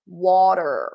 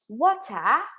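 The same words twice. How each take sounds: First: The word sounds thick and deep. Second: The word sounds thin and light.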